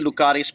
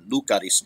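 First: The stress falls on the second syllable. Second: The stress falls on the first syllable. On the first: "I say Lucaris" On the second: "the emphasis on the first syllable"

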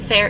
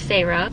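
First: The name sounds like the word fair. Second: The name does not sound like fair. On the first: The speaker calls it wrong. "It's not fair" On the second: The speaker calls it right. "that's how you say it"

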